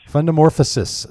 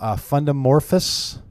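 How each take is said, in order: First: The word ends with a longer -morphosis ending. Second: The word ends with a short -morphous ending. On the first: The speaker calls it right. "See, I had this. I got myself all in the sissis thing at the end" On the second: The speaker calls it wrong. "trying to figure out how you pronounce the title of the book"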